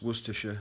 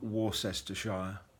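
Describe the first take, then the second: First: The name is said the short local English way. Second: The name is said more fully, following its spelling. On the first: The speaker calls it right. "that's Worcestershire" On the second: The speaker calls it wrong. "not Worcestershire, as most people seem to mispronounce the name"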